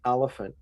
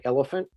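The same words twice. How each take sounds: First: "elephant" said the way Melbourne people say it, unlike his own; Melbourne pronunciation. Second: Said in the usual way. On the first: Shown as a demonstration. Guide contrasting his own accent with Melbourne's, then "elephant" the Melbourne way. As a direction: give "elephant" the Melbourne vowel sounds. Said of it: "they say elephant". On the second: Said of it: "we say elephant, they say elephant".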